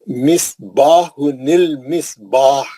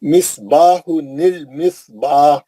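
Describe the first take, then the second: The two takes are said the same way.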